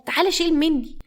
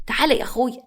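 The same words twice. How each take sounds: First: تعالى pitched much higher, a sing-song call. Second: Said in the usual way. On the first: Acted. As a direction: lift تعالى up high to coax him. Calling grandson again. (تعالى بنبرة عالية جدًا)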